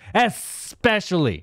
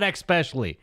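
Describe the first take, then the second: First: The word starts with a plain 'es' sound. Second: The word starts with an 'eks' sound. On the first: The speaker calls it right. "It's especially with an S" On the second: The speaker calls it wrong.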